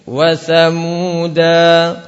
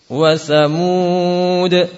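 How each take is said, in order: First: The word ends with a long 'a' vowel. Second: The word ends on a bare 'd' consonant. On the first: This follows the majority reading with tanwin. "Pakai tanwin. Jadi kalau berhenti ada alifnya" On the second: This follows the reading of Hafs, Hamzah and Ya'qub. "kita baca dengan sukun"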